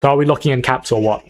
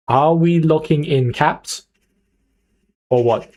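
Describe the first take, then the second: First: Said in the usual way. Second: Drawn-out words, pause before OR WHAT; slow, insistent question. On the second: Real, not acted. Streamer presses chat for a decision, slow and insistent. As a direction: spell it out slowly, then tack on the nudge. Asks chat again, slowly and deliberately.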